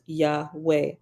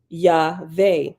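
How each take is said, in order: First: The middle consonant is a W sound. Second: The middle consonant is a V sound. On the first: "pronounced Yahweh" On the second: "render it with a V in the place of the W"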